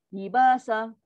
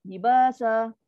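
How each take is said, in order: Both takes have the same delivery.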